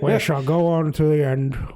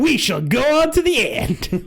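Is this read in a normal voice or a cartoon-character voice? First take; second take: normal voice; cartoon voice. First: It is read in his own normal voice. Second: It is read in Sonic the Hedgehog's voice.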